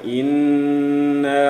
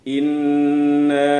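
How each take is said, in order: First: The n sound is nasal and held long. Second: The same.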